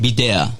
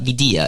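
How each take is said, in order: First: The name is said with a Spanish pronunciation. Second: The name is said with an American pronunciation. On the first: This is how the name's owner says it. The speaker calls it right. "try to say it right" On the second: This is how outsiders say the name. The speaker calls it wrong. "Americans said it Videa"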